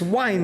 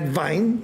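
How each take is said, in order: First: The word begins with a W sound. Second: The word begins with a V sound. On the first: The speaker calls it right. "it's wine" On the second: The speaker calls it wrong. "not vine"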